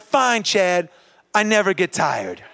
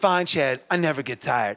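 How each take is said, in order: First: It is said with strong conviction. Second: It is said flatly, without conviction.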